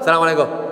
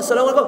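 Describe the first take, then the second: First: It sounds grudging and displeased. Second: It sounds warm and sincere, with a smile.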